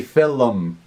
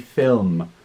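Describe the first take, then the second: First: The word is said with an Irish pronunciation. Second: The word is said with a standard pronunciation. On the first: "I say film. It's an Irish thing" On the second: "It should be film"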